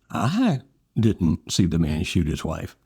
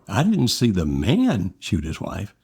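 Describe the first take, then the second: First: The word "see" carries the main stress. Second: The word "man" carries the main stress. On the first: The shooting is known about but was not witnessed. "you know something about him shooting his wife. You just didn't see it personally" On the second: Someone else was seen doing the shooting. "you saw some other person shoot his wife"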